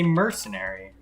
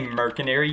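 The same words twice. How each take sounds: First: The middle C is pronounced like an S sound. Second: The middle C is pronounced like a K sound. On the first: The speaker calls it right. "you say mercenary" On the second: The speaker calls it wrong. "You don't say mercenary"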